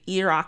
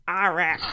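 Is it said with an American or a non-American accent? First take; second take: non-American; American. First: It is said without an American accent. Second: It is said with an American accent.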